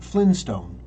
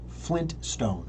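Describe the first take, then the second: First: No t sound is heard before stone. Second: A t sound is heard before stone. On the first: The speaker calls it wrong. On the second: The speaker calls it right. "There are two T's"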